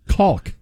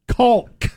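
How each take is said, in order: First: The word is said in a plain American accent. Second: The word is said in a British-sounding accent.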